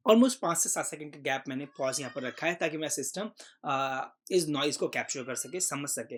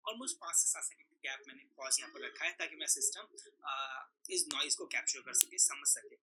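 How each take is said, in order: First: Said in the usual way. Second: The same recording played back softer, background noise removed; noise-cleaned playback. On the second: Shown as a demonstration. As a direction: replay it cleaned, the hiss gone. (Noise हटाकर साफ़ की गई धीमी recording) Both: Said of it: "यहाँ पर almost clean हो गई है".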